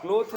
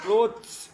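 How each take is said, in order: First: The word ends without a final s sound. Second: The word ends with a final s sound. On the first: The speaker calls it wrong. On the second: The speaker calls it right.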